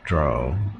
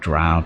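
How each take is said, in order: First: The vowel rhymes with row. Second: The vowel rhymes with cow. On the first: The speaker calls it wrong. "to rhyme with row" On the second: The speaker calls it right. "to rhyme with cow"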